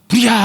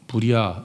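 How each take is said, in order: First: It is shouted loudly. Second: It is said quietly and softly.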